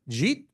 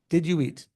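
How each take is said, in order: First: The words are squeezed into one syllable. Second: Each word is said clearly and separately.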